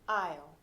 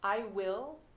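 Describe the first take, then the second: First: The words are merged into one short syllable. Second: Both words are said fully and separately.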